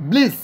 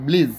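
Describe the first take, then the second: First: ব্লিস ending in a hissed s sound. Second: ব্লিজ ending in a buzzed z sound. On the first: Teacher reading an example word, ব্লিস with final s. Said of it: "ব্লিজ উচ্চারণটা হবে". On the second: Teacher correcting the example word, ব্লিজ with final z. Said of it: "এটা অবশ্য ব্লিজ উচ্চারণটা হবে". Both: Shown as a demonstration.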